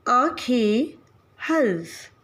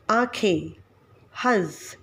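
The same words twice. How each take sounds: First: आँखें and हंस said with the vowel through the nose; nasal vowel demo. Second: आँखें and हंस with a firmer full nasal consonant; anusvar demo. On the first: Teacher demonstrating the anunasik sound, nasal vowel. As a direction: let the air out of nose and mouth on आँखें, हंस. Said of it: "अनुनासिक लगा के इसका उच्चारण करेंगे". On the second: Teacher contrasting the anusvar pronunciation, firmer nasal. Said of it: "अगर अनुस्वार लगाते हैं तो". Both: Shown as a demonstration.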